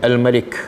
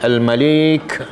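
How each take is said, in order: First: Both vowels are short. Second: The second vowel is long. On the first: "ma pun pendek, lam pun pendek" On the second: "lam tu panjang"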